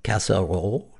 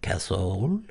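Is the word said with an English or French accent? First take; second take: French; French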